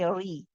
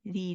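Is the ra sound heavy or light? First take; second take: heavy; light. First: The ra sound is heavy and full. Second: The ra sound is light and thin. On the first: The speaker calls it wrong. "We don't say a ri" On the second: The speaker calls it right. "It's nice and light"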